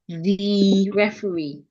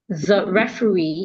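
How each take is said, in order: First: The vowel in 'the' is fully pronounced. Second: The vowel in 'the' is reduced to schwa. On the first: The speaker calls it wrong. "instead of the referee" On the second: The speaker calls it right. "I should reduce it and say the"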